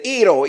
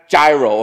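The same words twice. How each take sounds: First: The word is said the Greek way. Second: The word is said in a non-Greek way. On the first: The speaker calls it right. "You talk to any Greek person, they'll say gyro" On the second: The speaker calls it wrong. "It's not gyro"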